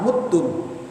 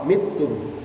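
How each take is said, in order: First: The first vowel is a rounded u sound. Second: The first vowel is a front i sound. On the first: "pakai dhammah" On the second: "pakai kasrah"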